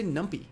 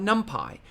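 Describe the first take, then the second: First: Numpy ending in an ee sound; numpy as num-pee. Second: Numpy ending like the word pie. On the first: Giving viewers the preferred pronunciation, numpy said as num-pee. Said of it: "I like to say numpy". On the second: Offering viewers the other pronunciation, numpy said as num-pie. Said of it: "you might call it". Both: Shown as a demonstration.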